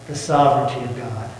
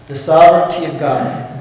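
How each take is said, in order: First: The sovereignty of God said low and softly; hushed statement of a key truth; quiet first saying. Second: Sovereignty stressed firmly, at normal loudness; emphatic repeat. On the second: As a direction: lean on the word sovereignty. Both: Shown as a demonstration.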